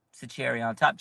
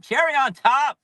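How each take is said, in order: First: Said in the usual way. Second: Louder and higher, cherry punched; fan's exclamation repeating himself; excited shout. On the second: Real, not acted. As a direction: blurt Cherry on top! with a rising cheer.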